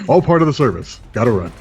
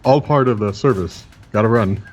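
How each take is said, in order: First: It is said with lively enthusiasm. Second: It is said flatly, without enthusiasm.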